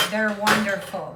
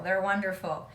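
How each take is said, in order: First: Louder, punchy "They're wonderful"; emphatic praise. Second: Said in the usual way. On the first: Real, not acted. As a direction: say "They're wonderful" with real enthusiasm. Gushing about favorite barbecue channel.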